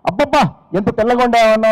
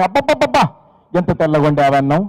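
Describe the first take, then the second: First: Hammed-up delight, "అబ్బబ్బా" stretched high; mock gushing praise. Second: Mock gushing praise. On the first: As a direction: gush over the rice like a clumsy husband. (అతిగా పొగిడే నటన) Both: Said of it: "ఎలా అభినందిస్తున్నాడు చూడండి".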